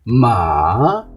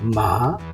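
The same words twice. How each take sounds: First: The pitch first dips down, then rises. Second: The pitch rises upward like a question. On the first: "आवाज़ पहले डाउन जाएगी उसके बाद ऊपर जाएगी" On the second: "ऊपर की जानिब आवाज़ खींची जा रही है।"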